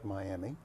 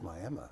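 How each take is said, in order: First: The name is said the common, widespread way. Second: The name is said the local Oklahoma way. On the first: The speaker calls it wrong. "it's not Miami" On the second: The speaker calls it right. "folks in Oklahoma, it's Miami"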